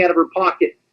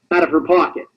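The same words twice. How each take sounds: First: Said in the usual way. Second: "pocket" set apart after a pause; emphasize the word "pocket"; stress on POCKET. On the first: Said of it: "emphasize the word pocket". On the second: Real, not acted. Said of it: "I have to emphasize the word pocket".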